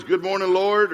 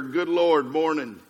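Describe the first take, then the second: First: Bright upbeat greeting, pitched up and loud; glad, rising hail to the Lord; cheerful morning greeting. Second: Weary exclamation, sinking at the end; dismayed morning groan. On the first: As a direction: greet the Lord eagerly, voice lifting on LORD. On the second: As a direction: dread the day, letting MORNING drop. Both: Acted. Two contrasting ways to greet morning.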